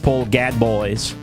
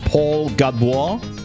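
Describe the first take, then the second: First: The surname ends in an oyz sound. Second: The surname ends in a wah sound. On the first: "If I just read what I see" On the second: "If I go like French"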